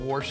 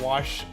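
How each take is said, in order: First: It is said with an r sound, like warsh. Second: It is said with no r sound, like wash. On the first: "a wash instead of wash" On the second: "instead of wash"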